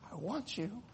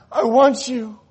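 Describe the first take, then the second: First: Much softer, hushed I want you; quiet first take. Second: Much higher and louder I want you; loud second take. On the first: God speaks softly to the sinner. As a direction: breathe it gently. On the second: God declares his love loudly to the sinner. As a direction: proclaim it. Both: Acted. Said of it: "And God said".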